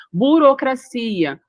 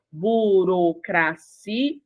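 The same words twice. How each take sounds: First: Said in the usual way. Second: "burocracia" very slow as bu, ro, cra, ci, a; syllable by syllable. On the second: Shown as a demonstration. Teacher shows the vowel separation, "burocracia" syllable by syllable. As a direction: break "burocracia" into syllables, final a apart from ci. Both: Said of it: "houve a separação da vogal".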